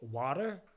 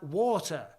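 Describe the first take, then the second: First: It is said in an American accent. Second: It is said in a British accent.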